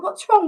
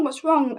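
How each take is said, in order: First: Sharp high alarmed question; high-pitched urgent query. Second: Said in the usual way. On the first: Retold or imitated. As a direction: burst in worried. Midwife rushes in alarmed.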